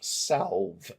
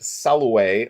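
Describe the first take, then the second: First: The word is pronounced in a plain American way. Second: The word is pronounced in a Latin-like way. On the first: The speaker calls it wrong. "as we might pronounce it in Ohio" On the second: The speaker calls it right. "I am going to pronounce it Saloué because French got it from Latin"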